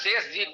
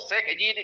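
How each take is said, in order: First: The first word ends with an sh sound. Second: The first word ends with a kh sound. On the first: The speaker calls it right. "शेष जी को" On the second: The speaker calls it wrong. "कहना उचित नहीं होगा"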